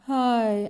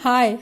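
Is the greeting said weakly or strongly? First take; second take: weakly; strongly. First: It is said weakly, in a sad tone. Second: It is said strongly, with lively energy. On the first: The speaker calls it wrong. "सैड word में हाय ऐसे तो नहीं बोलते ना" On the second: The speaker calls it right. "कभी बहुत strongly बोलते ना"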